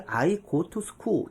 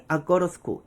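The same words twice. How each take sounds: First: Said in the usual way. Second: "I go to school"을 '아꼬러스쿠'처럼 붙여 빠르게; 원어민식 연음. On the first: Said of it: "하고 받아들이는 게 더 이상한". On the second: Shown as a demonstration. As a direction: run "I go to school" together, with "to" as a light "ro". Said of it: "원어민이". (원어민처럼 뭉개서 이어 말하기)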